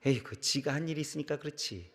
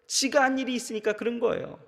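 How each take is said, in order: First: Elders' scolding remark. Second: Higher, stressing 지가 as the preacher's own point; plain affirmation. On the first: Retold or imitated. Preacher quoting what elders say, in a soft dismissive mutter. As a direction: toss it off like a grumbling elder. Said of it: "어른들이 그렇게 얘기하시더라고요". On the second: Shown as a demonstration. Preacher agreeing with the elders, stressing 지가. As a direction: lift 지가 and confirm it plainly. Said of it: "맞습니다".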